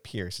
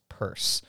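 First: The name sounds like the verb pierce. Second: The name sounds like the word purse. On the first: The speaker calls it wrong. "so it's not Pierce like to Pierce" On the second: The speaker calls it right. "it's Purse"

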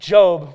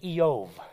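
First: The name is said with its English pronunciation. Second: The name is said with its Hebrew pronunciation. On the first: "Unlike Job" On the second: "which in Hebrew is actually Eov"

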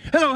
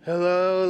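First: It sounds alert, like fully awake. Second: It sounds groggy, like just woken up.

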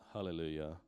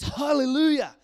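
First: The word is said flatly, without enthusiasm. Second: The word is said with exuberant enthusiasm. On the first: The speaker calls it wrong. "It's not like hallelujah" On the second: The speaker calls it right. "It's exuberant praise and boasting and raving"

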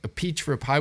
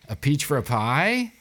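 First: The voice falls at the end, like a statement. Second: The voice rises at the end, like a question. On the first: It is stated as a plain statement. "It's all how you say it" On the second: It is asked as a question. "It was more of like a question"

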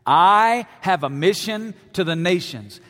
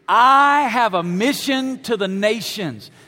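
First: It is said casually, without much conviction. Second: It is said forcefully, with strong conviction.

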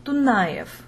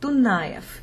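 Both takes have the same delivery.

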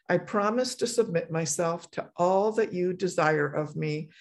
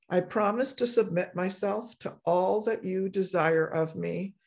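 Both takes have the same delivery.

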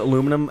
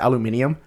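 First: It is said with four syllables, a-lu-mi-num. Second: It is said with five syllables, a-lu-mi-ni-um. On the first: "Americans pronounce it aluminum" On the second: "the British pronounce it aluminium"

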